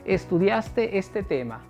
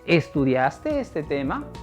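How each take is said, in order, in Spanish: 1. El tono baja y se hace más grave al final. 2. El tono sube al final.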